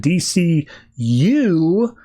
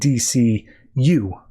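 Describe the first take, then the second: First: The final letter U is strongly stressed. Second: The final letter U is not specially stressed. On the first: It names the new line of comics. "I always have to put the emphasis on the U" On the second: It refers to all the books of the publisher. "so I'm not sounding like I'm saying D C U"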